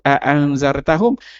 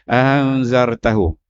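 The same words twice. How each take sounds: First: The glottal stop is pronounced fully and clearly. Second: The glottal stop is eased into a smooth glide. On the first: This is the careful reading that keeps every sound. "Dia tak sebut anzartahum" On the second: This is the easier reading used by many native speakers. "dia akan jadi anzartahum. Dia mudah sebut itu"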